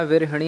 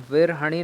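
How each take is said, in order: First: विरहिणी with a short hi before णी; correct form. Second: विरहणी with an open ha before णी; wrong form. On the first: Teacher giving the right spelling, विरहिणी with hi. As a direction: say विरहिणी with i after the ह. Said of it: "होता है". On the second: Teacher showing the wrong spelling, विरहणी with ha. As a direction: say विरहणी with a, not i, after र. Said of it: "नहीं होता". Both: Shown as a demonstration.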